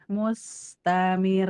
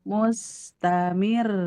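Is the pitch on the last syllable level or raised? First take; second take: level; raised. First: The pitch stays level on the last syllable. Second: The pitch rises on the last syllable. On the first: "kalau yang nggak pakai nabar begini" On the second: "Kalau ini mah mustamir, mir. Jadi naik"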